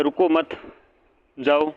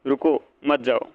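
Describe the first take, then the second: First: रुको मत run together, long pause, then जाओ; pause after मत. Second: रुको alone, pause, then slow मत जाओ together; pause after रुको. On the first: Teacher showing students how punctuation changes meaning, pause after मत. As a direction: break the phrase after मत, before जाओ. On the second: Teacher contrasting two readings for students, pause after रुको. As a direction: break the phrase after रुको, before मत जाओ. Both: Shown as a demonstration. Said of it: "तो फ़र्क होता है यहाँ पर".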